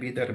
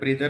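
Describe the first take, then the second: First: The name begins with a plain 'b' sound. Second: The name begins with a 'br' cluster. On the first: The speaker calls it right. "बिदर आहे ते" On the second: The speaker calls it wrong. "ब्रीदर नाही"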